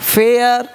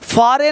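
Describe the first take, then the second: First: The vowel is an 'air' sound. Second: The vowel is an open 'ah' sound. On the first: The speaker calls it right. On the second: The speaker calls it wrong. "फारे नहीं"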